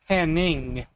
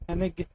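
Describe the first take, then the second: First: The name has a single ng sound. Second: The name has separate n and g sounds. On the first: "like pronouncing it with like an N G" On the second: "I always find it weird that it's Hennig"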